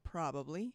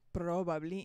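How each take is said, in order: First: The R is a plain English R sound. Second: The R is rolled or gargled, not English. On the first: The speaker calls it right. "instead of probably" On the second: The speaker calls it wrong. "I used to probably say probably"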